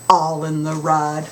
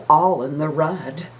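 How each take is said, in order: Both takes have the same delivery.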